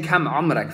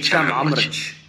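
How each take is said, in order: First: The phrase begins with a hard k sound. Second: The phrase begins with a ch sound. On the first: "rather than saying" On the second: "they say"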